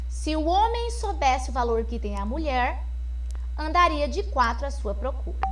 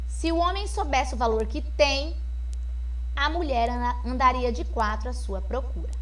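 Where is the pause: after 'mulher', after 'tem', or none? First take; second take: after mulher; after tem. First: There is a pause after the word mulher. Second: There is a pause after the word tem. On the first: Men would crawl searching for women. "com uma vírgula, depois da palavra mulher" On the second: Women would crawl searching for men. "E a vírgula agora após o tem"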